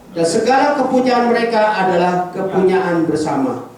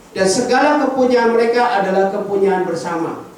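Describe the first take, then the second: No difference in how they are said.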